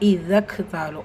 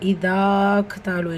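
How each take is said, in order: First: The vowel before the k sound is kept short. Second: The vowel before the k sound is held long. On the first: The speaker calls it right. "அப்படிதான்" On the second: The speaker calls it wrong. "இல்லை"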